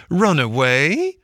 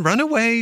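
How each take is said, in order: First: "Run away?" slow and rising, louder; scornful echo. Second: High, falling brush-off on "run away"; sergeant's dismissal. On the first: Washerwoman mocking the sergeant, "Run away?" slow and rising. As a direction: throw the words back in disbelief. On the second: Sergeant shooing the washerwoman, "run away" falling. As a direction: shoo her off with "run away". Sergeant's words, then Mole's echo. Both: Acted.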